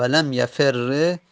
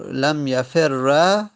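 First: Slow "لم یفر" ending in doubled r plus e; allowed kasra ending. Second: Slow "لم یفر" ending in doubled r plus long a; eloquent fatha ending. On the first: Teacher showing the allowed variant, "یفر" said yafer-re. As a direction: finish "لم یفر" on a held "re". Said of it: "فقط کسره یا فتحه". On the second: Teacher showing the eloquent form, "یفر" said yafer-ra. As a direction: finish "لم یفر" on a held "ra". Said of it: "که فصیحش است". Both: Shown as a demonstration.

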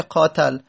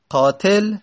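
First: قاتل said "qaatal", a in the last syllable; fatha on the ta. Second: Said in the usual way. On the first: Shown as a demonstration. Teacher trying the rejected vowel, fatha on ta. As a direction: put an "a" before the l of قاتل. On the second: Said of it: "قاتل اسم فاعله".

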